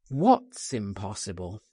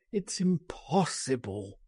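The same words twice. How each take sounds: First: Firm, lower challenge; insistent. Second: Softened, despairing refusal; groaned. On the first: Friend challenging the refusal, insistent. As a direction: press back with a firm question. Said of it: "I insisted". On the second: Man refusing escape, a mild despairing groan. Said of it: "he groaned". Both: A narrator's reading.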